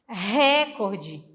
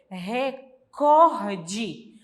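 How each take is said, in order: First: The stress is on the first syllable. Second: The stress is on the second syllable. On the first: The speaker calls it wrong. "A gente fala assim, mas também está errado" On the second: The speaker calls it right. "O correto é recorde, porque ela é uma palavra paroxítona"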